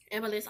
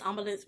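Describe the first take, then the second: First: "Ambulance" with a flat "a" as in "am"; first pronunciation attempt. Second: "ambulance" with an open "ah" start, "AHM-buh-lance"; alternative pronunciation attempt. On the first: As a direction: say "Ambulance" loosely, opening on "am", middle swallowed. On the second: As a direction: try "ambulance" as "ahm-bulance". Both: Real, not acted. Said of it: "whatever it's called".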